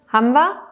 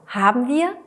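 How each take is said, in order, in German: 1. Die beiden Wörter werden zusammengezogen und verkürzt. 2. Die beiden Wörter werden getrennt und vollständig gesprochen.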